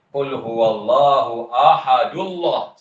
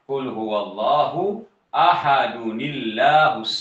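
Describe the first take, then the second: First: Ahad runs into Allah with no n sound. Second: Ahad links to Allah through an added nuni. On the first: The speaker calls it wrong. "tak boleh baca Qul huwallahu ahadullah. Salah" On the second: The speaker calls it right. "kita akan baca Qul huwallahu ahadunillahus samad"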